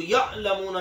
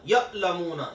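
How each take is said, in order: First: यअलमूना with a smooth, unjolted ain; the right, gentle ain in यअलमूना; soft ain. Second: यअलमूना with a hard stop where the ain should flow; the wrong, jolted ain. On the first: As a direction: correct Arabic ain. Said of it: "इसको नरम रखना है". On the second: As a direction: demonstrate the mistake: a jolted catch in यअलमूना. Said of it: "अब इसको यअलमूना नहीं पढ़ना, झटका नहीं देना". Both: Shown as a demonstration.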